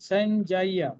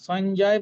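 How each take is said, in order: First: The word ends with a full vowel. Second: The word ends on a bare consonant. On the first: The speaker calls it right. "শেষের ইয়টা কিন্তু পূর্ণ" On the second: The speaker calls it wrong. "সঞ্জয় বলবো না"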